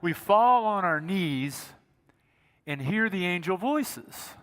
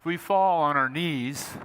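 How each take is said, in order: First: Slow, solemn words of the carol; spoken, not sung, the line slowed right down; recited hymn line. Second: Slow, solemn recital, not sung; slow reverent reading of a hymn; recited hymn line. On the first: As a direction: draw out fall like the hymn melody. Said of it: "I'm not gonna sing it". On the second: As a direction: lean slowly into each word of the carol. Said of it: "I'm not gonna sing it 'cause it's too high". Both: Shown as a demonstration.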